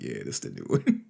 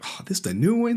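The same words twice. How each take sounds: First: Very low, offhand answer; mock nonchalant reply. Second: High, mock-excited question; mock curious questioner. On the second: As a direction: imitate an eager viewer, pitched up high. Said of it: "You like".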